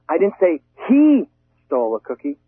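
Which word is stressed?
he. The stress falls on the word he. A different person took it. "maybe she did"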